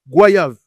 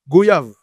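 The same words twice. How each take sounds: First: The 'oy' is said as in 'voyage'. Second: The 'oy' is not said as in 'voyage'. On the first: "comme le mot voyage" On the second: "Certains vont le prononcer goyave"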